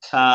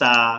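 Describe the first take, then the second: First: The consonant is a soft th, tongue at teeth. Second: The consonant is a plain hissing s sound. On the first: The speaker calls it right. "জিব্বার আগাটা ... উপরের দুই দাঁতের আগা" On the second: The speaker calls it wrong. "মানুষ এটাকে এইভাবে পড়ে সা, সা ফলে কি হচ্ছে, সিন হয়ে যাচ্ছে"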